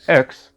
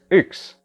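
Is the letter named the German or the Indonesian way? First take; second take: Indonesian; German. First: The letter name has the Indonesian vowel sound. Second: The letter name has the German vowel sound. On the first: The speaker calls it wrong. "Jadi bukan X" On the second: The speaker calls it right. "tapi X"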